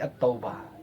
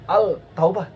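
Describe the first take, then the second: First: No L sound is heard; the t is doubled. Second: An L sound is heard before taubah. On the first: The speaker calls it right. "pasti At-Taubah ya" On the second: The speaker calls it wrong. "Al-Taubah tidak, oh nggak enak ini bacanya"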